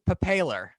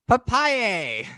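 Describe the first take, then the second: First: The name ends with an 'ler' sound. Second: The name ends with a 'yay' sound. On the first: The speaker calls it wrong. "I always read it as papaler" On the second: The speaker calls it right. "but it's papai papaye"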